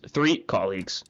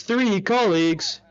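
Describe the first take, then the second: First: Said in the usual way. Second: Slow, otherworldly echoing answer; Dante's voice. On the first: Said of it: "allow us to make this up with a multiple choice question". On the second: Acted. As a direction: say it slowly like a strange clock-headed being. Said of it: "Dante says".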